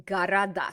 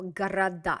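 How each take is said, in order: First: Ga-ra-DA, stress on the last syllable; correct Russian plural. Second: Города as ka-ra-DA, stress on the end; Города with final stress; Russian irregular plural. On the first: Teacher models Города, stress on DA. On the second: Teacher repeats Города for the student. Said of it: "That's an irregular plural". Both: Shown as a demonstration.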